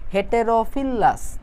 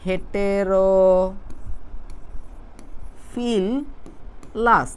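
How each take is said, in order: First: The word is said smoothly as one unit. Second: The word is broken into three separate chunks.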